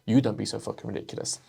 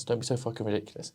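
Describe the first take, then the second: First: YOU stressed in a quick retort. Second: Said in the usual way. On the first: Acted. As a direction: throw it back, leaning on "you". Throws the objection straight back.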